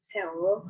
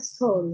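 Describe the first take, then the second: First: It is read letter by letter as 'say-oh'. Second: It is read with one vowel, like 'soul'. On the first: The speaker calls it wrong. "teman-teman kalau yang belum paham Hangul pasti bacanya seo" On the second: The speaker calls it right. "tapi itu harusnya dibacanya soul"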